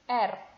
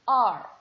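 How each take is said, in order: First: The letter is named with the Indonesian pronunciation. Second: The letter is named with the English pronunciation. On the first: "in bahasa Indonesia, we say it R" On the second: "But in English, we call it R"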